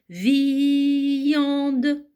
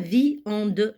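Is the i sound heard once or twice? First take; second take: twice; once. First: The i sound is said twice, vi-yande. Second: The i sound is said only once. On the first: The speaker calls it right. "je prononce cette lettre I deux fois" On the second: The speaker calls it wrong. "Je dis pas viande"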